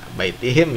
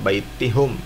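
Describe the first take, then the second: First: The vowel after the h is 'i'. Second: The vowel after the h is 'u'. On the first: The speaker calls it right. "baitihim ya" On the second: The speaker calls it wrong. "bukan baitihum"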